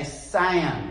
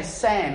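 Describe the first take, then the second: First: SAM drawn out slowly into SAY-UM; American long vowel. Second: SAM said with a short Australian vowel. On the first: Imitating how Americans say his name, drawn-out SAM. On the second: Aussie explaining his name, short-vowel SAM. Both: Shown as a demonstration. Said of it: "It's a longer vowel".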